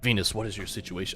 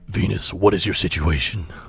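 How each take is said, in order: First: It is said in his normal voice. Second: It is said in a put-on character voice.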